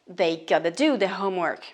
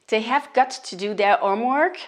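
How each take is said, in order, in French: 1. Cela se réduit en gotta, avec un T doux. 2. Les mots have got to se disent en entier.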